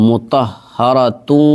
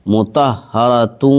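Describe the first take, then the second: The two takes are said the same way.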